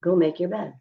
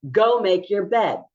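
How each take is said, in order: First: Said in the usual way. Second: Harsh command. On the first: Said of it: "Let me give you an example". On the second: Shown as a demonstration. Teacher showing an escalating tone, high and loud. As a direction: go make your bed barked high and loud. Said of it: "which one would cause you to escalate".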